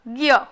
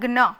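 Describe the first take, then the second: First: It is said with g joined to y. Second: It is said with g joined to n. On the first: This is the Hindi way of saying it. "हमें हिंदी भाषा में इसे बोलना है ग और य को जोड़कर" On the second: This is the Gujarati way of saying it. "ग और न को जोड़कर हम बोलते हैं ग्न"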